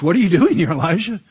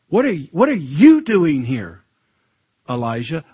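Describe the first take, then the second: First: It sounds surprised, like genuinely asking. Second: It sounds stern and rebuking.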